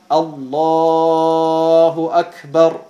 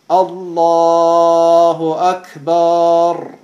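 First: The last vowel of Akbar is short. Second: The last vowel of Akbar is lengthened. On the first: The speaker calls it right. "statt Allahu Akbar" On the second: The speaker calls it wrong. "Sie auch fügen wieder ein Alif ein"

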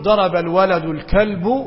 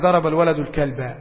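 First: The last word ends with a u vowel. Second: The last word ends with an a vowel. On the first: The speaker calls it wrong. "بالضم غلط يعني" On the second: The speaker calls it right. "لا يستطيع أن ينطق"

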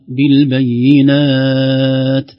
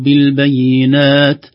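First: The final long vowel is held for six counts. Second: The final long vowel is held for two counts. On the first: "أو ست" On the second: "ممكن نقف بحركتين"

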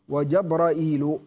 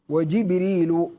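First: It has a glottal stop before the -il ending. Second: It begins Jib- with no glottal stop.

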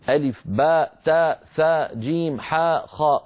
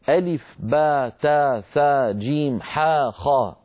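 First: The letter names end with a glottal stop. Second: The letter names end with an open vowel. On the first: "جاءت مهموزة" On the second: "وجاءت غير مهموزة"

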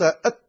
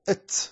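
First: The final t is held without a breath release. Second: The final t is released with an s-like hiss. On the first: "لو أنك نطقت أت لم يخرج الحرف" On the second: "تاء مشمومة بالسين"

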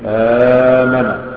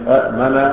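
First: One glottal stop is said before a long vowel. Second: Two glottal stops are said, the second unvoweled. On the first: This is how the word is actually said. The speaker calls it right. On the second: This is the original form of the word. The speaker calls it wrong.

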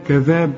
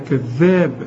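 First: The middle consonant is single and short. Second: The middle consonant is doubled and held long. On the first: The speaker calls it wrong. "مش كذاب" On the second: The speaker calls it right. "شوف الذال هنا مشددة ازاي، قلنا كذاب"

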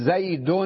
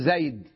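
First: The word ends with an added n sound. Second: The word ends on the d sound, no n. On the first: The word is said in continuous speech. "كأنه بعد الدال تنطق نون ساكنة" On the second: The word is said at a pause. "أين النون؟ ذهبت عند الوقف"

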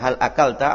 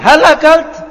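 First: The question is asked in a normal voice. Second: The question is asked in a raised, high voice. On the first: A simple question. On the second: The asker doubts the answer.

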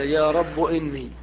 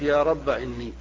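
First: The word rabb ends in a short u. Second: The word rabb ends in a short a. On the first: "حذفها وضم آخر المنادى" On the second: "حذف الألف"

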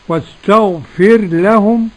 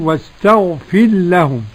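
First: The r is pronounced clearly before the l. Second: The r is merged into the following l. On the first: "بالإظهار والإدغام" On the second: "وقرأ السوسي بالإدغام قولا واحدا"

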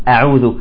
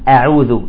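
No difference in how they are said.

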